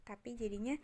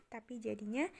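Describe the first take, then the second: No difference in how they are said.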